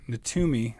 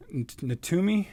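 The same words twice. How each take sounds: First: Natumi. said with a firm falling tune; settled name. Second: Natumi? said with a rising, unsure question tune; unsure name try. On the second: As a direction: ask it: Natumi?, rising at the end. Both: Shown as a demonstration. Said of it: "pronouncing that completely wrong".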